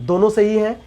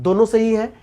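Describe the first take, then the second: The two takes are said the same way.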